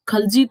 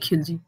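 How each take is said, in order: First: The first syllable has the vowel 'a'. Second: The first syllable has the vowel 'i'. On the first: The speaker calls it right. "खलजी था ना" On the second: The speaker calls it wrong. "न कि खिलजी"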